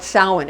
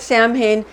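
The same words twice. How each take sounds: First: Samhain said as SOW-en; ancient pronunciation. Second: Samhain said as SAM-hayn; modern pronunciation. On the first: Telling what the ancients call it, Samhain as SOW-en. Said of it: "but the ancients call it Samhain". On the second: Explaining what modern people call it, Samhain as SAM-hayn. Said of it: "They call it Samhain, uh, modern people". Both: Shown as a demonstration.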